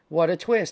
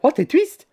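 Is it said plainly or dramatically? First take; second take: plainly; dramatically. First: It is said plainly, in a normal voice. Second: It is said dramatically, with exaggerated excitement.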